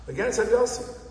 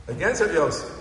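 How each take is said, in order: First: "Against Rav Yossi" with a high emphatic rise on Yossi; stress on Yossi. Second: Said in the usual way. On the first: Shown as a demonstration. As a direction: lift Yossi up, incredulous. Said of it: "repeated with emphasis". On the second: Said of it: "repeats it louder and higher".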